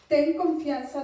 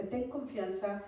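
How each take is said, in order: First: "Ten confianza" called out loud, TEN hit hard; emphatic proclaiming. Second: Said in the usual way. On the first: Shown as a demonstration. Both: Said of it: "Aquí hay otra palabra bien que me encantó".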